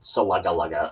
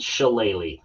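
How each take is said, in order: First: It sounds like suh-LUG-uh. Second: It sounds like shil-LAY-lee. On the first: The speaker calls it wrong. "It's not Salugga or whatever people think it might be" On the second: The speaker calls it right. "that is how you pronounce it"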